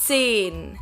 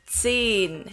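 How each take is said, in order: First: The vowel is long. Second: The vowel is long.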